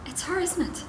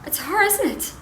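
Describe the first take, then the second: First: High but restrained accusing question; insistent accusation. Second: High, loud accusing question; sharp accusation. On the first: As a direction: keep HER high without raising the volume. Repeats accusation, less loudly. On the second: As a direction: jump high and loud on HER. Accuses husband over other woman. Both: Acted.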